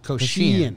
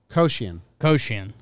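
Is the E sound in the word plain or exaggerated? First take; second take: exaggerated; plain. First: The E sound is said in an exaggerated way. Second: The E sound is said plainly. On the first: The speaker calls it wrong. "you were doing the E, like" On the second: The speaker calls it right. "You're saying it good"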